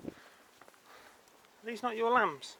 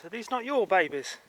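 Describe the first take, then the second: First: Higher and slow, stretching lambs out; slow, drawn-out coo at lambs. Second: Said in the usual way. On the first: Acted. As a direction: coo the word lambs long and slow to the sheep. Talking to sheep in field.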